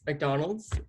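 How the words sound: It is said in an English accent.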